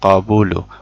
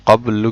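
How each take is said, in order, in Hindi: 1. b के बाद u स्वर है। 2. b के बाद कोई स्वर नहीं है। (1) "बा के ऊपर पेश पढ़ लिया" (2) "बा के ऊपर साकिन है"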